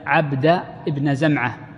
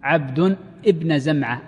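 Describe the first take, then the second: First: The first word ends without an added n sound. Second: The first word ends with an added n sound. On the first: The man is being addressed directly by name. The speaker calls it right. "فالجمهور ضبطوه على النداء" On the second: The child is declared a slave belonging to him. The speaker calls it wrong. "هو لك عبد بالتنوين"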